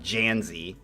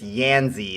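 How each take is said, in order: First: The name begins with a J sound. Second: The name begins with a Y sound. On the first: The speaker calls it wrong. "It's not Janzi" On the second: The speaker calls it right. "It's Yanzi"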